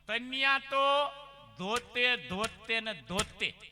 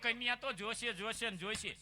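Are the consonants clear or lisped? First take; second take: lisped; clear. First: The consonants are swapped in a childish lisp. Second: The consonants are pronounced clearly and normally. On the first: "આની થોડીક જીભ જલાય" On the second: "એટલે એવું કહેતો હતો"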